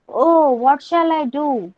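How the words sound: It is shouted with a happy, joyful tone.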